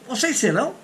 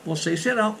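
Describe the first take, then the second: First: Said as a question, rising at the end. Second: Said as a statement, falling at the end. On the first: It asks whether you all will be. "is a question" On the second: It states that you all will be. "is affirmative"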